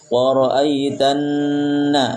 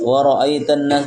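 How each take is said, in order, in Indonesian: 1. Bunyi N ditahan lama. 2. Bunyi N dibaca cepat. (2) "jangan tergesa-gesa"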